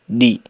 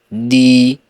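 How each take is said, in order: First: The vowel after the d is short. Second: The vowel after the d is long. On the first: "dal yang dibaca pendek" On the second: "apabila kita ingin baca panjang"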